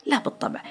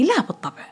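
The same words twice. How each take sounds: First: لا بالطبع whispered, much softer; soft whispered echo; whispered repeat. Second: Said in the usual way. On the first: Shown as a demonstration. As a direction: breathe the no again under your breath.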